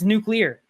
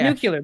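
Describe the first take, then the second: First: It has no extra 'yoo' sound: nuclear. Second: It has an extra 'yoo' sound: nucular. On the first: The speaker calls it right. "It's nuclear" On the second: The speaker calls it wrong. "Not nuclear. There's, there's no U there"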